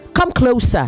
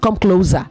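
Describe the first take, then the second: First: Closer has the sound of adjective close. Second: Closer has the sound of verb close. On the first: The speaker calls it right. "as an adjective or as a noun, you say close" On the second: The speaker calls it wrong.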